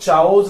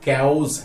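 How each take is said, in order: First: The word begins with a ch sound. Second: The word begins with a k sound. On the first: The speaker calls it wrong. "चाओस नहीं है" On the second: The speaker calls it right. "ये कैओस है"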